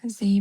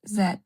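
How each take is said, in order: First: The letter is said the American way. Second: The letter is said the British way. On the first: "in America, they pronounce" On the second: "in the U K, this is by Oxford, so they pronounce it"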